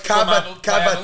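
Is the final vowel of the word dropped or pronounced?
pronounced. The word ends with a full final vowel. "but like cavatelli"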